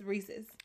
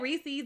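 First: The word is said the standard brand way. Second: The word is said the casual community way. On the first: This is the official pronunciation. "but it's Reese's" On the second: This is how the speaker's community says it.

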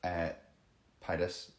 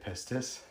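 First: The first S is left out. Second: The first S is clearly pronounced. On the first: "I'm going to pronounce it Pitis and assume that the S is silent" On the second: "I don't want to say pistis"

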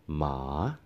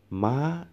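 First: The pitch dips down, then rises at the end. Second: The pitch is high and goes up. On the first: "The tone ma dips down, right? ... At the end, it rises up a little bit" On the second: "The tone goes up, right? So this one is the high tone"

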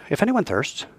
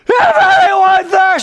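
First: It is read flatly and quietly. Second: It is shouted out loudly.

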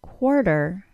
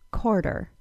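First: The K sound is followed by a W sound. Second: The K sound has no W sound after it.

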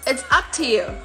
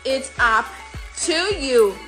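First: The word 'to' is reduced to a t. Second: The word 'to' is said fully and slowly. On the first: "Você pode falar apenas como t" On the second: "A forma devagar é"

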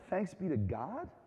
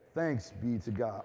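First: It is said doubtfully, like a puzzled question. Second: It is said as a plain, formal response.

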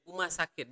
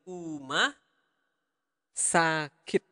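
First: The phrase is said at normal speed. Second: The phrase is said slowly.

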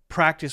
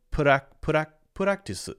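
First: The R is a typical English R sound. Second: The R is a quick tapped flap sound.

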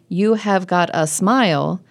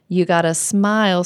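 First: The opening words are said fully and clearly. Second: The opening words are reduced and run together. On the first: The speaker calls it wrong. "They don't sing, "You have got a smile."" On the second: The speaker calls it right. "what happens naturally is that it becomes, "You gotta." And the stress is on smile"

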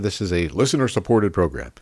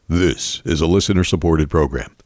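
First: It is said in his normal speaking voice. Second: It is said in an imitated Occupy Democrats voice.

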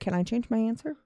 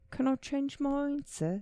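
First: It is said in the speaker's plain accent. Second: It is said in a put-on British accent.

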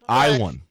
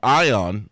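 First: The name is said like ee-wahn. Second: The name is said like eye-on. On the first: The speaker calls it right. "the correct pronunciation of his name is Iwan" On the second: The speaker calls it wrong. "we called him Eon or Ion last week, but his name, the correct pronunciation"

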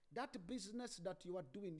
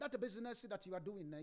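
First: It is said with an Igbo-like Nigerian accent. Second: It is said without the Igbo-like accent.

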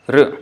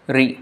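First: A syllabic r, as in Sanskrit. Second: An r followed by an i vowel. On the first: "In Sanskrit, we pronounce it as R" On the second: "But for Bengali, we say this is the kind of pronunciation it gets"

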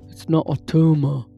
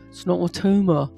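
First: It is said in an attempted Austrian accent. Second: It is said in a British accent. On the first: "I cannot do Arnold" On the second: "No, that's British"

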